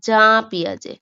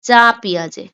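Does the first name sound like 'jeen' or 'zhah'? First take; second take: zhah; zhah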